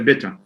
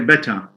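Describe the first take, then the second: First: The first vowel is a higher 'i'-like sound. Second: The first vowel is an open 'e' sound. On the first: This is how learners tend to say it. The speaker calls it wrong. "Most students, foreign language learners, tend to say better" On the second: This is the standard form. The speaker calls it right. "we say better"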